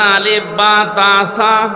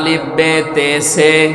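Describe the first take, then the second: First: The letter names end in an 'a' vowel. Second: The letter names end in an 'e' vowel. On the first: This is the newer accurate reading. The speaker calls it right. "এখন সদ্য করে যদি বলেন" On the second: This is the older customary reading. The speaker calls it wrong. "আগে পড়তো"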